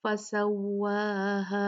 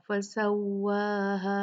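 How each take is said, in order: First: Slow "फसव्वाहा" with the final "हा" held two counts; chanted "फसव्वाहा", ending fully held; two-count madd. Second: "फसव्वाहा" with the last "हा" cut short; chanted "फसव्वाहा", ending not held; wrongly short stop. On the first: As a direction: let the last vowel of "फसव्वाहा" run long. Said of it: "दो count करेंगे". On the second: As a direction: stop early on the final "हा" of "फसव्वाहा". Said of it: "हमने ऐसे नहीं रुकना". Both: Shown as a demonstration.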